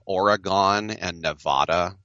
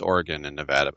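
First: The names are pronounced the East Coast way. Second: The names are pronounced the Western local way. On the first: This is how East Coast people say it. The speaker calls it wrong. "people on the East Coast say Oregon and Nevada" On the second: This is how people there say it. The speaker calls it right. "it's Oregon and Nevada"

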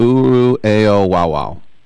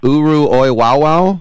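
First: The second part sounds like the letters 'A.O.'. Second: The second part does not sound like 'A.O.'. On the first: The speaker calls it right. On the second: The speaker calls it wrong.

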